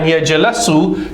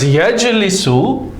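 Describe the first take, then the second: First: The middle syllable has the vowel a. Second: The middle syllable has the vowel i. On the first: The speaker calls it wrong. "sound strange" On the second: The speaker calls it right. "there's no difficulty in pronunciation, so it's correct"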